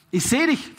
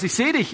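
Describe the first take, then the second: First: "Ich sehe dich" said emphatically, pitched high; emphatic repeat. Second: Said in the usual way. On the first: Retold or imitated. Jesus calls up to Zachäus in the tree, emphatic repeat.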